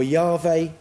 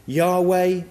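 First: "Yahweh" with a V in place of the W; "Yahweh" pronounced with a v sound. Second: "Yahweh" with a W in the second syllable; "Yahweh" pronounced with a w sound. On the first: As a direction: say "Yahweh" as YAH-vay. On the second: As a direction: say "Yahweh" as YAH-way. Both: Shown as a demonstration. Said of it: "Some pronounce the name".

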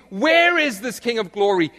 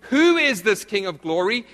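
First: WHERE punched loud and high; stress on WHERE. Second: WHO hit loud in a rising question; stress on WHO. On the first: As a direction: hit WHERE hard as a challenge. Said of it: "Peter was asking". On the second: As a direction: punch WHO, asking for identity. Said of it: "Peter wasn't asking". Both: Acted.

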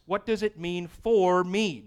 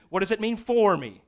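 First: Said in the usual way. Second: "for" pushed higher and louder, not "to"; emphatic "for me"; stress on for. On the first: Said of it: "Not to me". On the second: Shown as a demonstration. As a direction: lean on the word "for" to contrast it with "to me". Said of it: "Not to me, what does it mean for me?".

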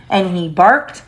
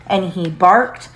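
No difference in how they are said.

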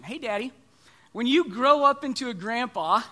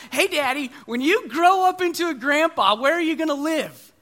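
First: Said in the usual way. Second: Put-on higher, louder kid voice; curious little boy. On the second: Son at the dinner table asking dad, high and eager. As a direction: ask it like an eager small boy. Son's question voiced again.

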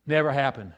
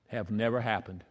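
First: Said in the usual way. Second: Much softer, lower, letting it sink in; softly. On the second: Shown as a demonstration. Preacher quietly telling the church it never happened. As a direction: drop it to a hush. Repeated for emphasis.

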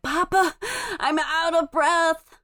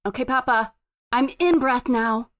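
First: Put-on high, drawn-out small-child complaint; little child winded. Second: Lightly voiced toddler, settled and matter-of-fact; little child recovered. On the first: Three-year-old running up to Papa, winded and whiny. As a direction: play a winded toddler, slowly and high. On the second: Rested three-year-old reporting back to Papa, composed. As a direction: announce it simply, like a small child.

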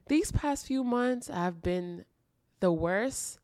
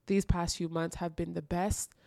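First: Heavy, slow. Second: Said in the usual way. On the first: Shown as a demonstration. Host recalling hard months, slow and heavy. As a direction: drag it out like it was rough.

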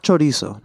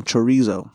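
First: Chorizo with a Spanish tapped r; Spanish pronunciation. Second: Chorizo in plain American English; non-Spanish pronunciation. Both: Shown as a demonstration. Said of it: "not Spanish chorizo".

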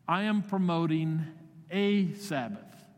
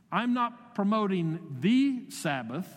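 First: "a" drawn out slowly and hit hard; weight the little word "a" in "a Sabbath"; slowed "a Sabbath", a small-s kind of rest; stress on A Sabbath. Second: Slow, with "the" weighted and pitched up; "the Sabbath" as one fixed, capital-S day; stress on THE Sabbath. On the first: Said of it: "with a small s". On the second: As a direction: lean on "the" in "the Sabbath", slowly. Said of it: "That's with a capital S". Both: Shown as a demonstration.

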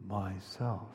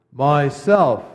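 First: "myself" breathed much softer, a hushed whisper; whispered softly. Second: "myself" ringing out much louder and joyful; loud clear happy. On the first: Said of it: "whispered so softly you could hardly hear it". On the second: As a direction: proclaim "myself" gladly and loud. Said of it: "loud and clear and happy". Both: A narrator's reading.

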